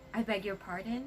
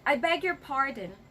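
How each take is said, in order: First: It is said in a friendly, smiling tone. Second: It is said in a harsh, scary tone. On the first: The listener wants it repeated. The speaker calls it right. "please have that smile" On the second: The listener is annoyed by what was said. The speaker calls it wrong. "Do not say that with that scary face of yours"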